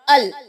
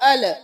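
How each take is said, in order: First: The l sound is held with no vowel after. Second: The l sound is followed by a short vowel. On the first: The speaker calls it right. "को साकिन रखना है, हिलाना नहीं है" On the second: The speaker calls it wrong. "ना कि"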